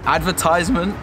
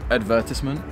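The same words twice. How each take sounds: First: The word is said with an American pronunciation. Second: The word is said with a British pronunciation. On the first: "People say it like that as well, but it sounds American" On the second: "You say it in the British way"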